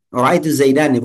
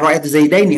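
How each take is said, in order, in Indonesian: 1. Kata terakhir berakhir dengan 'a' panjang sebelum -ni. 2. Kata terakhir berakhir dengan bunyi 'ai' sebelum -ni. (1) "kabilah Huzail ini ... kalau ngomong Ra'aitu Zaidani" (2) "Harusnya Ra'aitu Zaidaini yang umum"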